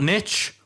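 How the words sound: It is said like 'nitch', rhyming with 'riches'. "I'm going to catch heat for taking the American pronunciation"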